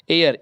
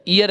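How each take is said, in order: First: एयर starting with an "ay" sound; E vowel at start. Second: ईयर starting with an "ee" sound; long EE at start. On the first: Teacher telling air from ear, एयर opening on "ay". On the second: Teacher telling ear from air, ईयर opening on "ee". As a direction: say ईयर as "ee-yer". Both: Shown as a demonstration. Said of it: "एयर, ईयर नहीं है".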